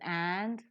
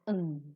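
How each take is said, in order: First: The word is said with a full vowel. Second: The word is said with a reduced vowel. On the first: "The strong form is and" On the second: "The weak form is un"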